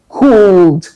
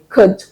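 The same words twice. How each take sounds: First: The vowel is a long 'ooh' sound. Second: The vowel is short, with no L sound. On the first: The speaker calls it wrong. "prior to that time, I would say could" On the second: The speaker calls it right. "You don't add the l sound, so you say could"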